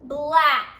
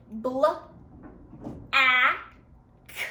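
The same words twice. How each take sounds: First: Said in the usual way. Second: "Bl-, a, k" in separate sounds, long pauses between; sounded out. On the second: Shown as a demonstration. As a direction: break "Bl-, a, k" into bl, short a, crisp k. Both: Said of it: "Let's listen".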